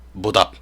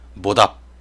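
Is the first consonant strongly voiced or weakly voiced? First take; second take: strongly voiced; strongly voiced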